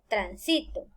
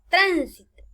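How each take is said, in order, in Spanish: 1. El acento está en la sílaba del medio. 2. El acento está en la primera sílaba. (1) "en una palabra grave" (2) "en las esdrújulas agregarán la palabra tránsito"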